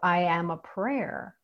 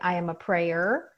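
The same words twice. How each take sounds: First: The last word is said as one syllable. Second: The last word is said as two syllables. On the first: The speaker embodies prayer itself. "as in I embody the essence and the energy of prayer itself" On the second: The speaker is someone who prays. "as in I pray"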